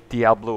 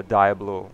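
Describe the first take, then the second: First: Diablo said "dee-AH-blo"; variant pronunciation. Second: Diablo said "dye-AB-lo"; alternative pronunciation. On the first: Gamer offering viewers either pronunciation, Diablo as "dee-AH-blo". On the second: Gamer offering viewers either pronunciation, Diablo as "dye-AB-lo". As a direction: say Diablo with a "die" start. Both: Shown as a demonstration. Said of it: "however you wanna pronounce it".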